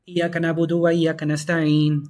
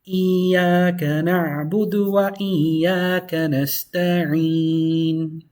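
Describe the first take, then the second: First: The long vowels are rushed and cut short. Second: The long vowels are clearly held and stretched. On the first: The speaker calls it wrong. "It's incorrect to say. ... Too fast, too fast" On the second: The speaker calls it right. "just make sure to really hold it"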